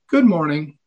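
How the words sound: The greeting sounds slightly hesitant and troubled. Something is troubling her. "slightly more hesitant tone of voice"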